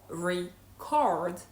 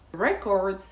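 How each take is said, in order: First: "record" as ree-CORD, weight on the second syllable; stress on second syllable. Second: "record" as REK-ord, weight on the first syllable; stress on first syllable. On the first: Teacher showing another word whose meaning shifts, second-syllable stress. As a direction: hit the end of "record". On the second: Teacher showing it means something totally different, first-syllable stress. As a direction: hit the start of "record". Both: Shown as a demonstration. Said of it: "how to stress words properly".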